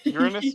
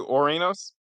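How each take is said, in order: First: The name begins with a 'you' sound. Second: The name begins with an 'oh' sound. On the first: It sounds like a rude body-part joke. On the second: It avoids the rude body-part joke.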